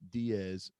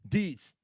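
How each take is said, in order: First: The name is said in two syllables, ending in 'z'. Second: The name is said in one syllable, ending in 'ts'. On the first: The speaker calls it wrong. "No, it's not" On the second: The speaker calls it right. "that is what it is"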